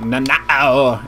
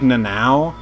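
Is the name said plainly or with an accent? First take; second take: accented; plain. First: The name is said with an imitated accent. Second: The name is said plainly, without a put-on accent. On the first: "I get you're probably trying to do the accent" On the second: "I would say it's just, like"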